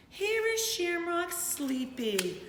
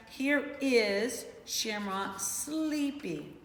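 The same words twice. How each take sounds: First: Slow drowsy read of the page; sleepy reading. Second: Very slow, drawn-out read; slow sleepy reading. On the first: Teacher to her class, reading the page sleepily. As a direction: let the words sag as if half asleep. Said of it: "I'm yawning". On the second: Teacher rereads the page to her class, very slowly. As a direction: stretch each word like you're nodding off. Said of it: "I'm sleepy". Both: Shown as a demonstration.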